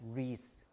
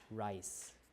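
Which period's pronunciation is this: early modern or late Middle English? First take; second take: late Middle English; early modern. First: It is said in the older, late Middle English way. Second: It is said in the later, early modern way. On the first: "you pronounce it as Reese, Reese in late Middle English" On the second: "we pronounce it as rice, like that. That's in early modern English"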